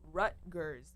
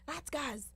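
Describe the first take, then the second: First: The name is pronounced the standard English way. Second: The name is pronounced in a garbled, distorted way. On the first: The speaker calls it right. "trying to say it's Rutgers" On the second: The speaker calls it wrong. "none of them could pronounce that name"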